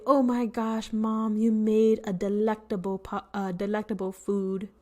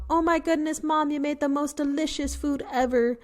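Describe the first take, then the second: First: Said in the usual way. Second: Gushing to mom. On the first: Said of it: "you can say". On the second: Shown as a demonstration. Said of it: "instead of telling your mom".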